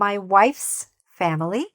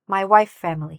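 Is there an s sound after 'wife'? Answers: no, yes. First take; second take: yes; no. First: The s sound after wife is clearly said. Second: The s sound after wife is left out. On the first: The speaker calls it right. "make sure that it sounds like my wife's family" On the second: The speaker calls it wrong. "not my wife family"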